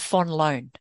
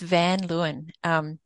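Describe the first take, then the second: First: The surname is said with a Dutch pronunciation. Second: The surname is said with an English pronunciation. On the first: "If you pronounce it like a Dutch person" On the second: "you know, English pronunciation"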